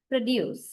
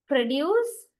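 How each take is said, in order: First: Produce as a verb, pro-DUCE, second syllable stressed. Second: Produce as a noun, PRO-duce, first syllable stressed. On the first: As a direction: lean on the DUCE in produce, falling tone. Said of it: "if you stress the latter part". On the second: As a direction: lean on the PRO in Produce, pitch rising. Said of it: "used as a noun when you". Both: Shown as a demonstration.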